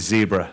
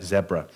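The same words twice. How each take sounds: First: The word is given its American pronunciation. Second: The word is given its British pronunciation. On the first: This is how it is said in America. "I spent some time working in the in in America, so I have to call it Zebra now" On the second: This is how it is said in the UK. "all my U K colleagues call it"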